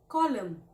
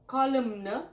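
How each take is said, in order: First: The final N is silent. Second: The final N is sounded. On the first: The speaker calls it right. "Silent N" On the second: The speaker calls it wrong. "Not column"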